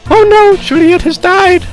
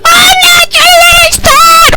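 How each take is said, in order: First: It is said smiling, with amusement. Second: It is said louder, sounding upset.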